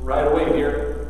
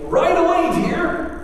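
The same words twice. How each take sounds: First: It is said in a sarcastic, dismissive tone. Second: It is said in an eager, willing tone. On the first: The speaker has no intention of doing the task. "as you lay down for a nap" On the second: The speaker will do the task at once. "and skip off to mow the lawn"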